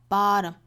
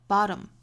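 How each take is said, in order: Both takes have the same delivery.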